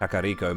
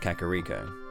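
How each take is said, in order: First: It is pronounced following Japanese phonetics. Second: It is pronounced in an anglicized way. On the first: This is how other people say the name. "using Japanese phonetics, Kakariko makes sense" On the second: This is how the speaker has always said the name. "I always called it Kakariko"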